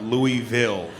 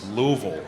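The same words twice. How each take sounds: First: The name is said with full, separate syllables. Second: The name is said with reduced, blended syllables. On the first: The speaker calls it wrong. "It's definitely not Louisville" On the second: The speaker calls it right. "It's Louisville"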